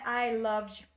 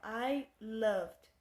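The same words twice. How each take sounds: First: The final D is strong and clearly pronounced. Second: The final D is soft and barely heard. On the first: The speaker calls it wrong. "Não é" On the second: The speaker calls it right. "ele fica bem suave. Ele só dá uma, uma riscadinha no final. Perceba"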